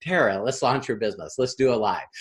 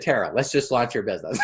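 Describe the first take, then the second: First: Low, soft, patient push; steady and low, coaxing her along; calm insistence. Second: Quick, laughing repeat; laughing insistence. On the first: Coach calmly urges Tara to launch, low and patient. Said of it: "And I'm going". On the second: Coach repeats his push to Tara, fast and laughing. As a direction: rattle it off fast through a laugh. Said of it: "I, I said". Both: Retold or imitated.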